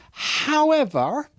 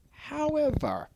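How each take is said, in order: First: However stretched slowly, higher, rising at the end; drawn-out however. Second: However said softer, higher, falling away. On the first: Trainer showing staff how to say However, slow and rising. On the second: Trainer repeating however to staff, soft and falling. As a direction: drop the second however quietly. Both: Shown as a demonstration. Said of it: "the trick is to say no, however".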